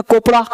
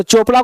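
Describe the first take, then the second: First: "कोपड़ा" with a hard k in place of ch; misread CH as K. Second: Said in the usual way. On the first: Retold or imitated. Teacher quoting a misreading to class, "कोपड़ा" with a k. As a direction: say "कोपड़ा", opening on a k sound. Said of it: "पढ़ लिया उसने कोपड़ा". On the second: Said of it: "चोपड़ा को पढ़ लिया उसने कोपड़ा".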